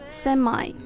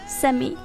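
First: It is said with an American pronunciation. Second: It is said with a British pronunciation. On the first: "美式呢会发semi" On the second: "英式会发semi"

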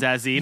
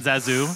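First: The name ends with an 'ee' sound. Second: The name ends with an 'oo' sound. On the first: The speaker calls it right. "It's Zazie" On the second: The speaker calls it wrong. "not Zazu"

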